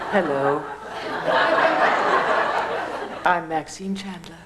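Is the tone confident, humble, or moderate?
humble. It is said in a very humble, meek tone.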